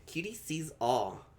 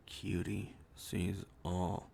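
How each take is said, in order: First: Slow, drawn-out mystic chant, lightly voiced; a hint of a fortune-teller, stretched slowly; mystic oracle voice. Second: Much lower, very slow mock-ominous oracle; deep slow oracle voice. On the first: Mystic cat oracle catchphrase. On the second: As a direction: stretch it out low like a hammed-up seer. Reworks oracle catchphrase lower.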